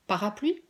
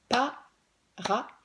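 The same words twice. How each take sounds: First: Said in the usual way. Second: Parapluie stretched into pa-ra-pluie, very slow; syllables split slowly. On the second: Shown as a demonstration. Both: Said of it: "On va en faire un beaucoup plus long".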